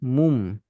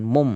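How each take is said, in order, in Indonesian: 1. Vokalnya adalah bunyi 'u' membulat. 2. Vokalnya adalah bunyi 'o' terbuka. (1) "Mum sempurna domah" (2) "Bukan mom"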